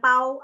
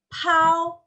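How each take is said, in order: First: "pau" with a plain P, no puff of air; unaspirated P. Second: "pau" high and drawn out, P puffed with air; aspirated P. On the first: Teacher showing bukan pau aja, plain unpuffed P. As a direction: say "pau" casually, holding back the breath on P. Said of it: "P biasa tanpa aspirasi". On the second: Teacher modelling pakai aspirasi, puffed high "pau". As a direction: stretch "pau" after a burst of breath on P. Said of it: "tapi pakai aspirasi". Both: Shown as a demonstration.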